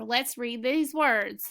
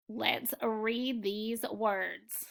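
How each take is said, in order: First: Unhurried and evenly projected; slow, clear cue to read. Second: Put-on drawn-out and hushed, as if prompting a young class; slow, soft cue to read. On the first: Teacher calling the class to the review list, slow and clear. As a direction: say it steadily to signal a new word list. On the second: Teacher softly inviting the class to read along, slow and hushed. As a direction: stretch each word softly so the children can join in. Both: Shown as a demonstration.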